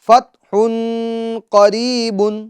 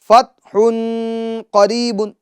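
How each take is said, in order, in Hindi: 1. 'fath' के बाद का n साफ़ बोला जाता है। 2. 'fath' के बाद का n साफ़ बोला जाता है।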